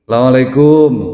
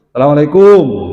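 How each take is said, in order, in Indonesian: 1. Salam itu diucapkan agak keras. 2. Salam itu diucapkan sangat keras, vokalnya terdistorsi. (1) "Rada ngegas ngono to" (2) "iki domah wis ora u, dadi o"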